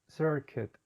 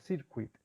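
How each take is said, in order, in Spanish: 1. La primera vocal es un sonido 'er' largo del inglés. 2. La primera vocal se dice como en español, en 'circuito'.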